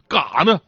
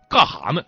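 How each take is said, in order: First: The middle syllable is a bare a sound. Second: The middle syllable starts with an h sound. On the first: This is the most northeastern form. "连哈都简化成啊了" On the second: This is a strongly northeastern form. "2 级简化"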